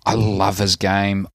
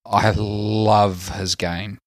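First: Said in the usual way. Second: LOVE stretched out long and slow; stress on LOVE. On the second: Real, not acted. Fan insisting on admiring a player, LOVE drawn out. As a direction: draw out the word "love" for emphasis.

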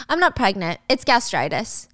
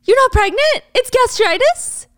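First: Matter-of-fact, slowing on the last word; smirking reveal. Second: Loud, very high disbelieving echo; incredulous questions. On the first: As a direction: drop the news with a slight smirk. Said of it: "Gia smirks". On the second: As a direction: throw it back in outraged disbelief. Acted boyfriend stunned by the reveal. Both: Acted.

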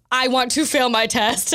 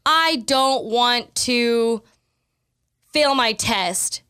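First: Said in the usual way. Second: Very slow, "I don't want to" drawn out with pauses; slow affirmation. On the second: Shown as a demonstration. Showing a gymnast's negative affirmation, spoken very slowly. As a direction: spell it out word by word. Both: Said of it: "Your brain is actually subconsciously thinking".

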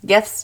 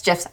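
First: GIFS with a hard G, as in gift. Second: GIFS with a soft G, as in gem. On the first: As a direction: say gifs starting like "give". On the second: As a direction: say gifs like "jifs". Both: Shown as a demonstration. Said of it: "I don't know".

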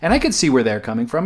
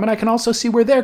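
First: Said in the usual way. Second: Higher voice, other side of the argument; pitched higher for the other side. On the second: Retold or imitated. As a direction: jump higher to voice the other view. Weighing two sides of a fight.

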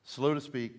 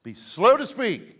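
First: Said in the usual way. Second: "Be slow to speak" drawn out slowly and loud, each word weighted; slow proclaimed. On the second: Shown as a demonstration. Pastor quotes James to the congregation, slow and emphatic. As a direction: lean into "slow" and let the line land heavy. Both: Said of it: "as James says".

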